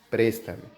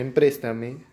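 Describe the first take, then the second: First: The word starts directly with 'pres'. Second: The word starts with an extra 'em' syllable. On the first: The speaker calls it right. "simplemente es préstame" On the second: The speaker calls it wrong. "En vez de empréstame"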